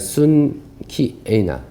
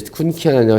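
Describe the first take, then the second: First: The ending is pronounced like 'kieina'. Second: The ending is pronounced like 'kiana'. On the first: The speaker calls it right. "사실 발음은 ... 순키에이나 라는 발음이 정확한 거고요" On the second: The speaker calls it wrong. "저는 예전에 이제 쿤키아나"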